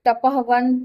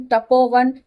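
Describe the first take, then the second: First: तपहवन with the visarga voiced as a light ह between तप and वन; split form before sandhi. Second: तपोवन with the visarga turned into a clear ओ, no ह; joined sandhi form. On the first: Teacher shows students the form before sandhi, ह clearly sounded. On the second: Teacher gives students the joined form, ओ in place of ह. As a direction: say तपोवन as one smooth word with ओ. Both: Shown as a demonstration.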